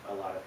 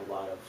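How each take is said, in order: Both takes have the same delivery.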